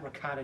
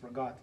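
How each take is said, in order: First: It is said in full, ending in a vowel. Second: It is clipped, with the final vowel dropped. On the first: This is how outsiders say it. The speaker calls it wrong. "it's not ricotta cheese" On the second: This is how Italian Americans say it. The speaker calls it right. "It's ragout"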